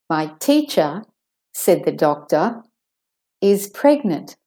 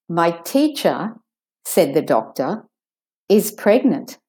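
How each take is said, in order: The two takes are said the same way.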